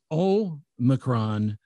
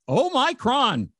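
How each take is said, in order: First: Very slow "Omicron" with stress on the first syllable; correct Omicron. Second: "Omicron" pitched much higher, slow, as oh-MY-cron; "Omicron" high and slow, MY stressed; wrong Omicron. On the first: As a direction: draw out "Omicron" as OH-mih-cron. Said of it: "the emphasis is on the first syllable". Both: Shown as a demonstration.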